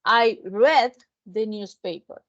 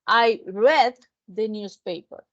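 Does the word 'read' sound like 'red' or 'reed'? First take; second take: red; red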